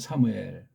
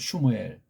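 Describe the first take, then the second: First: The name begins with a plain 'sa' sound. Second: The name begins with a 'shmu' sound. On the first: This is the form passed on through Japanese. "일본 발음으로" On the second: This is the form in the original language. "원문 발음으로"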